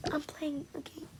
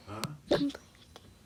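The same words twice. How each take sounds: First: Whispered "I'm playing a game" very softly. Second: "I'm playing a game" dropped much lower, softer and strange; deep odd voice. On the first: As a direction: breathe it out secretly under the breath. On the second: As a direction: put on a low, hollow voice. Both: Line repeated in two voices.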